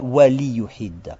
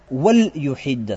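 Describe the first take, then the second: First: The l is followed by a short i vowel. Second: The l is closed with no vowel after it. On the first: The speaker calls it wrong. "Почему не «вали юхидда»?" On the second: The speaker calls it right. "«Валь юхидда» сказано"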